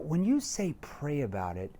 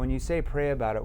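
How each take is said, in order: First: The pitch moves up and down with energy. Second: The pitch stays flat with no ups or downs. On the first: The speaker calls it right. "But if you do it this way" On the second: The speaker calls it wrong. "with a monotone voice where there's no up or down"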